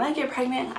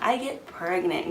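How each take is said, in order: First: Said in the usual way. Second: "pregnant" drawn out slowly for emphasis; "get pregnant" stretched out with comic weight; emphatic repeat. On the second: Real, not acted. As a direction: lean slowly on "pregnant", as in seriously pregnant. Repeats phrase to mean really pregnant.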